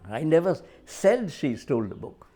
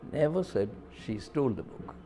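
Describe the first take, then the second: First: The stress is on "said". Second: The stress is on "never".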